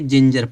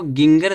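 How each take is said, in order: First: It begins with a j sound. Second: It begins with a hard g sound. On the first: The speaker calls it right. "जिंजर पढ़ेंगे" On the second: The speaker calls it wrong. "इसको गिंगर नहीं पढ़ेंगे"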